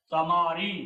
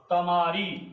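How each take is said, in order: Both takes have the same delivery.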